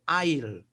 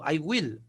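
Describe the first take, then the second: First: It is contracted into one syllable. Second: It is said as two full words. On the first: "hay contracción" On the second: "Este es I will"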